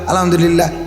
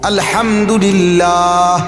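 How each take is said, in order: First: It is rattled off very fast, repeated like a machine. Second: It is said slowly with every sound pronounced fully. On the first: The speaker calls it wrong. "কিচ্ছু না কিচ্ছু না" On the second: The speaker calls it right. "হা পুরো উচ্চারণ করতে হবে"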